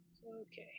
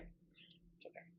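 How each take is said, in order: First: Said in the usual way. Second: Soft self-soothing whisper; breathy slow it's okay; whispered reassurance. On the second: Real, not acted. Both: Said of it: "It is all right".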